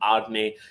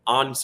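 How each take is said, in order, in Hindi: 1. नाम 'eh' स्वर पर खत्म होता है। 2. नाम व्यंजन पर खत्म होता है, कोई स्वर नहीं। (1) "नॉट आर्ने" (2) "आर्न स्लॉट जो हॉलैंड में बोला जाता है"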